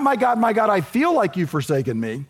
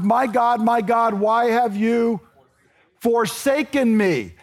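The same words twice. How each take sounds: First: Said in the usual way. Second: Slow, raw cry of forsaken. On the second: Shown as a demonstration. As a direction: let the anguish stretch out.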